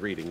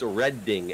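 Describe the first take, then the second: First: The first syllable sounds like 'reed'. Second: The first syllable sounds like 'red'. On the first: This is the habitual reading of the spelling. The speaker calls it wrong. "I just read it as reading because of habit" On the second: This is the name of the Pennsylvania town. The speaker calls it right. "The correct way to pronounce the name of railroad is Redding"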